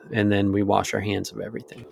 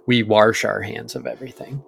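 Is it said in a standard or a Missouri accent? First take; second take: standard; Missouri. First: It is said in the speaker's usual accent. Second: It is said in a Missouri accent.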